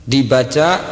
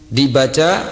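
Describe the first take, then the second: Both takes have the same delivery.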